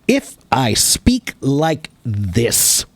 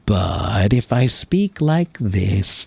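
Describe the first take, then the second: First: The words are short and detached, choppy. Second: The words flow smoothly and calmly together. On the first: The speaker is being serious. "That's staccato" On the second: The speaker is relaxed and calm. "I'm being more relaxed and more calm"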